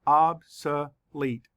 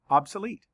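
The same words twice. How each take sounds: First: Slow, OB-so-lete split into syllables. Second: Said in the usual way. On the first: Shown as a demonstration. Teacher counting syllables for students, slow and split. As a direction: tap out Obsolete slowly beat by beat. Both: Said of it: "Let's count the syllables".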